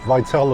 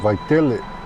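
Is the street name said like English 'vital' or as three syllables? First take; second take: vital; three syllables. First: The name sounds like the English word vital. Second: The name is said with three syllables. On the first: This is how the navigation voice says it. The speaker calls it wrong. "Vital according to Siri over here" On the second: This is how the name should be said. The speaker calls it right. "but it should be Vitele"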